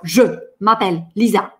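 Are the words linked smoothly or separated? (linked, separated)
separated. The words are said separately, without flowing together. The speaker calls it wrong. "Я не скажу"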